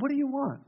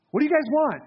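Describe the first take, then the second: First: Soft, quieter and kind question; gently. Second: Pointed, slightly raised question over the shoulder; a bit harsh. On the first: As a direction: ask it gently, inviting them in. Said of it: "He might have said it very gently". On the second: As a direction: challenge them lightly, a touch blunt. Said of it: "I don't know if he said that in a harsh manner". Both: Retold or imitated.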